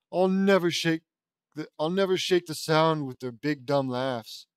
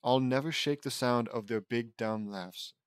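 First: Hammed-up anguish, restarting the line. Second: Slow, understated anguish; weary, slowed-down touch of anguish. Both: A narrator's reading.

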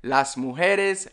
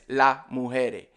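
First: Said in the usual way. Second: "la mujere" with both plural S sounds left off; dropped S. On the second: Shown as a demonstration. Teacher showing Caribbean plurals, dropped S. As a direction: end "mujere" on an open e, no S. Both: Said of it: "We just don't say the S".

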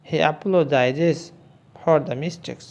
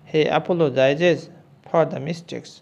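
The two takes are said the same way.

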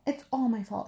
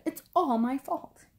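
First: Mildly upset storybook fox; a touch of distressed self-blame. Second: Higher, mounting distressed wail; very upset. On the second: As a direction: wail it with stress on "all". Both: A narrator's reading. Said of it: "Fox was very upset".

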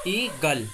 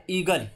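First: "ईगल" split as ई-गल with a drawn-out opening "ई"; sound demonstration. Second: Said in the usual way. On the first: Shown as a demonstration. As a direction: sound out "ईगल" in two parts to show the long "ई". ("ईगल" को ई-गल तोड़कर, "ई" खींचकर बोलते हुए) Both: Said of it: "ई का sound आ रहा है".

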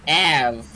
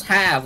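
First: "Av" with no H sound; dropped H. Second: Said in the usual way. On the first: Shown as a demonstration. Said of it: "oh, it's have, like Av". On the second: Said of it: "like Av".

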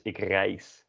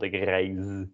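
First: Reis ending in an unvoiced S; right reis with S. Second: Reis ending in a buzzing Z; wrong reis with Z. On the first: Teacher giving the right reis with an S. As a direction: finish reis with a hissed S. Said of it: "not ik reis". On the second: Teacher giving the wrong reis with a Z. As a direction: end reis on a voiced Z. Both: Shown as a demonstration.

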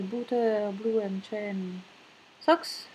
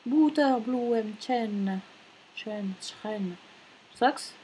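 First: Slow, failed attempt at a German accent; German name in a French accent; lost German accent. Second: Slow, careful German pronunciation; attempted German accent, word by word. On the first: Real, not acted. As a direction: try German and miss the accent. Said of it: "j'ai perdu mon accent allemand". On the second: Shown as a demonstration. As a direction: sound out the German name slowly. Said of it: "mais en allemand, ce sont les".

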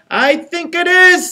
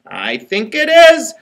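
First: Much higher, eager repeat of the line; squeaky little engine. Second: Slow, lightly voiced little engine; a gentle first take of the engine. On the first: Acted. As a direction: push the engine's voice way up. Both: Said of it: "said the little engine".

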